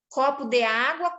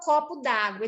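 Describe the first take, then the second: First: The word 'de' is said in full. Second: The vowel of 'de' is dropped and joined.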